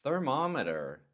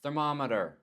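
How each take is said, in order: First: Thermometer pitched higher, a little off; thermometer, said a bit off. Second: Thermometer said the usual American way; thermometer, English way. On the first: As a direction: toss off thermometer with an odd tune. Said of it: "If you say it a little bit off". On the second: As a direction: say Thermometer with a falling English tune. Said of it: "I'm gonna give you an example". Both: Shown as a demonstration.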